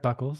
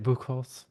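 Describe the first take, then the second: First: The surname is said like 'Buckles'. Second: The surname is said like 'Buchholz'. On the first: This is how Americans say it. "is kind of how the Americans say it" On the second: This is how Germans say it. "the Germans say it Buchholz"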